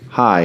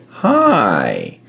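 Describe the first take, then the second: First: Said in the usual way. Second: Long drawn-out creepy greeting; creepy parrot. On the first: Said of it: "it didn't say, "Hi". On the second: Retold or imitated. Parrot greeting someone passing the basement door, creepy. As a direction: stretch it out, sliding lower like an eerie bird. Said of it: "It said, "Hi".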